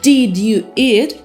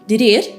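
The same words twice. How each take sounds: First: Each word is said clearly and separately. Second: The words run together into one blur.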